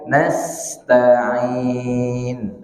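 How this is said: The s sound flows smoothly into the rest. The speaker calls it right. "Tapi alirkan saja"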